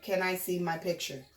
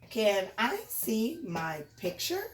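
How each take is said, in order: First: The voice falls at the end. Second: The voice rises at the end.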